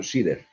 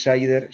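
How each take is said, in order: First: Sider said the Spanish way, "SEE-der"; corrected company name. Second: Sider said the English way, like "SY-der"; mispronounced company name. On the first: Speaker correcting the host on the company name, Spanish-style Sider. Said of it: "no es Sider, sino Sider". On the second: Speaker quoting the host's mistaken company name, English-style Sider. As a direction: say Sider with an English long I, rhyming with "spider". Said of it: "Un par de correcciones". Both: Shown as a demonstration.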